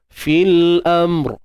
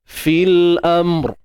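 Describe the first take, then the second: Both takes have the same delivery.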